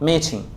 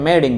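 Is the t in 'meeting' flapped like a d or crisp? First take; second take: crisp; flapped. First: The t is a crisp, clear t sound. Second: The t is softened into a d-like sound. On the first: "ব্রিটিশরা সেটাকে কি বলবে মিটিং" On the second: "এটাকে American রেবে বলবে মিটিংটাকে মিটিং বলবে"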